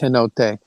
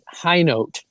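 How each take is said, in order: First: The name does not sound like 'high note'. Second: The name sounds like the words 'high note'. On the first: This is a guess from seeing it in print. The speaker calls it wrong. "I thought it was Hinote" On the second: This is how the owner of the name says it. The speaker calls it right. "she pronounces it Kate High Note"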